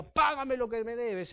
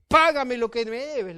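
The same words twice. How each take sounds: First: Said in the usual way. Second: Exigencia fuerte y alta, a viva voz; demanda enojada. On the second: Acted. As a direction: reclama el pago a gritos, como un acreedor furioso. Siervo exige el pago con violencia. (exigencia enojada en voz fuerte)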